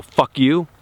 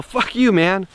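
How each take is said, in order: First: Hard, hostile Fuck you with a rising edge; a hostile Fuck you to someone he doesn't like. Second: Playful, much higher Fuck you, man between buddies; teasing his buddies with a much higher Fuck you, man; joking fuck you. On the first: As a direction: say Fuck you to a stranger you dislike. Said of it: "I don't know you and I don't like you and I look hard in your eyes". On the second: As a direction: toss Fuck you, man off as a friendly jab. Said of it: "hanging out with my buddies and we're joking around". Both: Shown as a demonstration.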